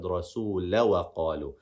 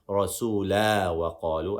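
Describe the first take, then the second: First: The vowel after rasul is a short a. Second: The vowel after rasul is a long a. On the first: The speaker calls it right. "I said" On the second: The speaker calls it wrong. "I didn't say"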